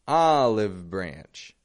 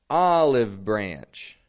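The two takes are said the same way.

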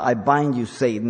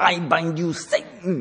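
First: It is said plainly, at normal loudness. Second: It is said forcefully, loud and emphatic.

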